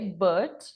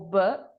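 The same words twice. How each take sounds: First: The final T sound is pronounced. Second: The final T sound is left out.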